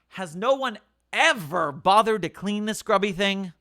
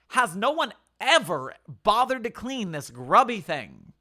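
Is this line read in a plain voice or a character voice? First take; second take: plain voice; character voice. First: It is read in the narrator's plain voice. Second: It is read in Brainy's character voice.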